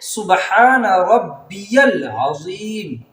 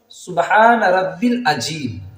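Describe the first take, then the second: First: The middle word is said as rabbiyal. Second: The middle word is said as rabbil. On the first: The speaker calls it right. "पढ़ना इस तरीके से है ... ये सही है।" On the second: The speaker calls it wrong. "लेकिन लोग किस तरह पढ़ते हैं?"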